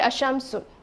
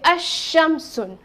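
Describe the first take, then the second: First: The sh sound is short and not doubled. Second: The sh sound is doubled and held longer. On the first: The speaker calls it wrong. "I won't say" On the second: The speaker calls it right. "You are supposed to stress on this sign"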